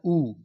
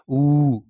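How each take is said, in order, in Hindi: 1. यह स्वर छोटा और सीधा बोला जाता है। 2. यह स्वर दीर्घ है और इसमें थोड़ा जोर देकर बोला जाता है। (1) "हर्ष उ का उच्चारण करना है तो उसको सीधे कह देना है" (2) "दीर्घ उ का उच्चारण करना होगा तो इसको थोड़ा सा जोर दे के"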